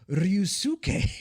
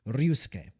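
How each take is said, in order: First: The second u is said fully with emphasis. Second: The second u is reduced and barely heard. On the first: The speaker calls it wrong. "which is technically incorrect" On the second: The speaker calls it right. "It's pronounced Ryusuke"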